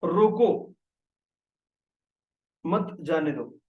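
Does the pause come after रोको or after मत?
after रोको. The pause comes after रोको.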